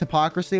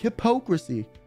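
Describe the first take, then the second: First: The word is pronounced in the normal way. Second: The word is distorted with an extra syllable. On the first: The speaker calls it right. "When I know it's hypocrisy" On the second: The speaker calls it wrong. "I'll add like an extra syllable"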